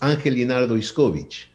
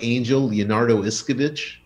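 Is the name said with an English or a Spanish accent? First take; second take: Spanish; English. First: The name is said with a Spanish accent. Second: The name is said with an English accent.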